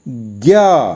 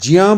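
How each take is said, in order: First: The syllable is said like 'gya'. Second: The syllable is said like 'jya'. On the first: This is how it is mostly said. "इसका उच्चारण है ज्ञा" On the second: Some videos teach it this way. "कई video में इसका उच्चारण ज्या बताया है"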